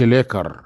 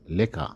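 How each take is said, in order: First: The word ends with a clear r sound. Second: The word ends with an open a sound. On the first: The speaker calls it wrong. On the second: The speaker calls it right.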